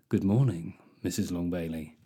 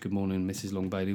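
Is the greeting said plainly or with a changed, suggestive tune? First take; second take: suggestive; plain. First: It is said with a changed, suggestive tune. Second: It is said in a plain, ordinary tone.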